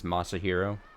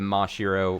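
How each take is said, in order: First: The name is said with an extra syllable. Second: The name is said without an extra syllable.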